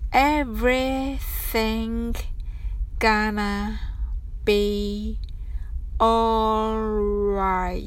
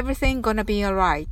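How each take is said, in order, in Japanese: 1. このフレーズはゆっくり話されています。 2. このフレーズは速く話されています。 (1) "はじめはゆっくりです。" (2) "早く言ってみましょう。"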